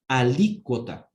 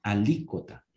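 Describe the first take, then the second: First: Alícuota said slowly with the stress on the second syllable, a-LÍ-cuo-ta; slow, clear Alícuota with a strong stress on the LÍ. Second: Alícuota repeated, stress kept on the LÍ, a-LÍ-cuo-ta. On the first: Teacher correcting a student's word, slow and stressed. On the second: Teacher repeating the word for the class, stressed. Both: Shown as a demonstration. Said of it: "tiene acento en la I".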